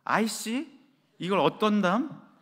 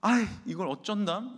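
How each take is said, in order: First: "아이씨" snapped as a curse, slow irritated "이걸 어떤담?"; annoyed curse. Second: A lightly flustered "아이, 이걸 어쩐담?"; flustered sigh. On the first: How the children heard mom, as an irritated curse. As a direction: curse it out under pressure. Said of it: "그 말이 이렇게 들렸답니다". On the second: Wife stuck with a dead car, mildly flustered. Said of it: "당황한 아내는". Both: Retold or imitated.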